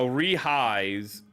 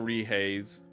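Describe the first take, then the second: First: The second syllable has an 'eye' vowel. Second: The second syllable has an 'ay' vowel. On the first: The speaker calls it right. "I know A I makes eyes" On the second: The speaker calls it wrong. "I thought it was pronounced the Rehays"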